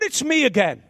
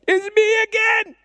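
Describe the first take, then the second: First: It is said in a bold, confident tone. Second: It is said in a timid, apologetic tone. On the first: The speaker feels accepted and welcome. The speaker calls it right. "boldly. Boldly confident" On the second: The speaker feels unworthy to approach. The speaker calls it wrong. "Not like this"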